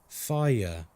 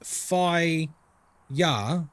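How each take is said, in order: First: The word flows together as one syllable. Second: The word is split into two syllables. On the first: The speaker calls it right. "You say fire. It it flows" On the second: The speaker calls it wrong. "You don't say fi ya"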